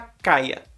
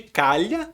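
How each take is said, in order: First: The middle sound is a plain 'y' glide. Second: The middle sound is a palatal 'lh' consonant. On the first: "tem muita gente que fala caia" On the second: "trocando esse som li pelo som i, de calha"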